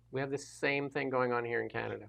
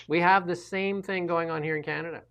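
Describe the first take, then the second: First: Repeated much softer, to himself; quiet echo. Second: Said in the usual way. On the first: Real, not acted. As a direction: drop the volume and echo it. Repeats the point twice.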